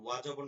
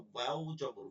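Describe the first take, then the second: First: ওয়া জবর with ওয়া cut to a bare "wa"; wrong short wa. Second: ওয়াও জবর with ওয়াও said in full, drawn "waaw". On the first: Teacher quotes the mistaken spelling, short wa. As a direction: drop the final w of the letter name in ওয়া. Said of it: "ওয়া জবর না". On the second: Teacher corrects the spelling for pupils, full waaw. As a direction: round off ওয়াও with a clear final w. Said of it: "কি হবে?". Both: Shown as a demonstration.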